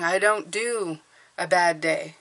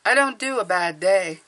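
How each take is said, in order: First: Said in the usual way. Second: "don't" leaned on, the line a bit louder and falling; stress on don't. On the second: Shown as a demonstration. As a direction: hit "don't" firmly on the repeat. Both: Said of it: "I've started saying".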